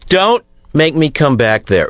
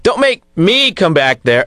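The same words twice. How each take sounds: First: It sounds tough and stern, like a dad. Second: It sounds soft and weak, not tough.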